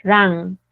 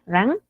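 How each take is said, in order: First: "run" drawn out with an open a, like "ran"; longer vowel. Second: "run" with a brief a sound; short vowel. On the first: Teacher comparing both forms by duration, long vowel. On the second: Teacher comparing both forms by duration, short vowel. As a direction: keep "run" short, lifting at the end. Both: Shown as a demonstration. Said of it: "La diferencia está en la duración".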